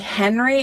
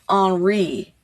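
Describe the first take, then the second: First: The name is pronounced the usual English way. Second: The name is pronounced the French way. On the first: "it's not necessarily Henry" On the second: "it's Henri. Henri, because it's in France"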